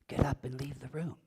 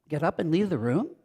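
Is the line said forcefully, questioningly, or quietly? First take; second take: quietly; questioningly. First: It is said softly and quietly. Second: It is said with a questioning tone. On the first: "I could say it quietly" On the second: "Or with a questioning tone"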